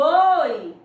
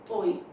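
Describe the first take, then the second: First: It is said happily and with excitement. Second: It is said dryly, with no emotion.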